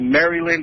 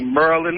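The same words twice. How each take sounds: First: The first syllable sounds like 'Mary'. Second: The first syllable sounds like 'Mur'. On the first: This is how people outside the area say it. "most of the people in this area don't say Maryland" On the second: This is how local people say it. "they say Maryland, like with the U"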